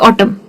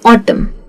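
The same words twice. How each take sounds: First: The final m sound is short and clipped. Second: The final m sound is soft and drawn out. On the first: The speaker calls it wrong. "ऐसे नहीं कहते" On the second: The speaker calls it right. "उसे कहते हैं ऑटम। तो वो थोड़ा soft भी जाता है और म की वजह से वो थोड़ा सा खींचता भी है।"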